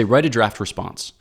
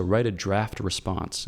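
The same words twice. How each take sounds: First: Said in the usual way. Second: Slower, softer, with weight on "draft"; stress on draft. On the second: Shown as a demonstration. Teacher repeating his advice on replies, stressing "draft". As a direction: lean slowly on the word "draft". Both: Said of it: "I would emphasize the word draft".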